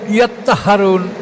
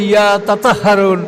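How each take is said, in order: First: The 't' is one long doubled sound. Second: The 't' sounds are split into two syllables. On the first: "যেমন ইয়াত্তাহারুন" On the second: "এটা কেউ কেউ বলছে"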